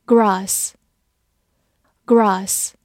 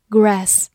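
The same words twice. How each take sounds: First: Grass with a long broad "ah", as in British English; non-American pronunciation. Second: Grass with the American flat "a" of "cat"; American pronunciation. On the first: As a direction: draw out "Grass" as "grahss". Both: Shown as a demonstration. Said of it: "美式发音读作grass".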